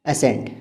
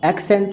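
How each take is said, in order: First: "एसेंट" with a plain S, no K; correct pronunciation. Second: "एक्सेंट" with K before S; wrong pronunciation. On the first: Teacher presenting the silent C, correctly pronounced. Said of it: "अब एक्सेंट तो नहीं". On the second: Teacher showing how not to say it, mispronounced. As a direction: sound the C as K in "एक्सेंट". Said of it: "तो नहीं कह रहे". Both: Shown as a demonstration.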